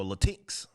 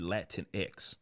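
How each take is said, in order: First: "Latinx" run together as la-TINKS, no separate X; Latinx as la-TEENKS. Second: "Latinx" said as Latin plus the letter X. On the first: Unsure host offering another reading, "Latinx" as la-TEENKS. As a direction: say "Latinx" as one word, la-TEENKS. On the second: Unsure host trying out a term, "Latinx" as Latin-ex. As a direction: say "Latinx" as LAT-in-EX. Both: Shown as a demonstration. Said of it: "I don't know actually how you say it".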